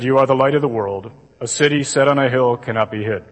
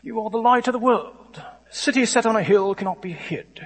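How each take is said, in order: First: Low, level drone with no expression; monotone gospel reading. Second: Higher, softer Shakespearean stage English; stuffy Shakespearean accent. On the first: Shown as a demonstration. Imitating a priest reading at Mass, monotone. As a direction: recite it like a bored lector. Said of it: "Ever heard it read like that?". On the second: Retold or imitated. Mimicking a film Jesus, stuffy Shakespearean accent. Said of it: "shows up with a Shakespearean accent".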